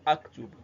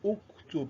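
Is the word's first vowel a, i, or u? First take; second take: a; u. First: The first vowel is a. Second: The first vowel is u. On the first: The speaker calls it wrong. "is not aktub" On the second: The speaker calls it right. "you pronounce it with what? With doma"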